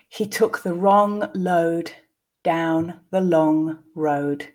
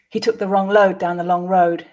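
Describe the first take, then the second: First: The sentence is said slowly, with pauses. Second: The sentence is said at a natural pace. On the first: "I'll read the first time slowly, pausing for you to grasp the meaning" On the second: "then repeat again twice at a more natural pace"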